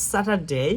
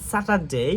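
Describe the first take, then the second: No difference in how they are said.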